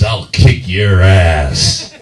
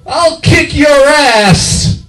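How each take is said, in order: First: Slow, drawn-out tough-guy threat; mock macho, low-key menace; manly threat. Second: Very high, loud squealed threat; unmanly threat. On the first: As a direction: say it slowly like a manly drinker. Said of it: "beer is manly". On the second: Acted. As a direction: shriek it slowly in falsetto. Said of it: "I lose some of that masculinity".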